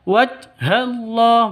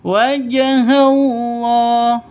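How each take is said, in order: First: The j sound is flat, with no echoing bounce. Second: The j sound is bounced with a short echo. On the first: The speaker calls it wrong. "Bukan dibaca wajhallah, bukan seperti itu" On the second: The speaker calls it right. "Tapi dipantulkan"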